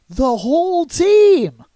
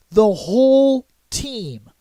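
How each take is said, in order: First: High, loud, drawn-out cry falling at the end; incredulous exclamation. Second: Slow, stretched WHOLE, then a falling "team"; dramatic drawn-out emphasis. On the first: Host stunned that they lost everyone, incredulous exclamation. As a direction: stretch "team" high and loud. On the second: Host telling viewers they lost everyone, dramatic drawn-out emphasis. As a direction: draw out "whole team" with a pause inside. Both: Real, not acted.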